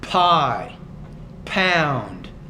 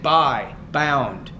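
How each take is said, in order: First: The P is released with a strong puff of air. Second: The P is released with little air, like B. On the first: The speaker calls it right. "the P needs more air" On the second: The speaker calls it wrong. "You're saying buy, bound. So you're not pronouncing that P with enough air"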